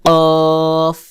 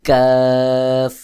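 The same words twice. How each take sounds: First: কফ hard, rounded and higher-tongued at the back, "qoof"; hard qof. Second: কাফ light, with an open unrounded "aa"; thin kaf. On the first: Teacher contrasting it with the thin letter, কফ hard and round. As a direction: say কফ firmly, with a round held vowel. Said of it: "কফ শক্ত করে উচ্চারণ হবে". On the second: Teacher contrasting it with the heavy letter, কাফ thin and light. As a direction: say কাফ thinly, as a long "kaaf". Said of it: "কাফ পাতলা করে উচ্চারণ হবে". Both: Shown as a demonstration.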